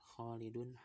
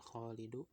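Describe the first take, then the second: First: The word ends with an n sound. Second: The word ends without an n sound. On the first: The speaker calls it right. "akhirannya dia tanwin semua ya" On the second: The speaker calls it wrong. "nggak dibaca ... Khalidu"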